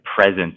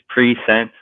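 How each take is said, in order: First: It is said as the ordinary word present. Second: It is split into pre and sent. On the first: It names the current moment. The speaker calls it wrong. "the word present is like pronounced wrong" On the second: It was already sent from the past. The speaker calls it right. "could it be that it's pre-sent, like it was already sent from the past?"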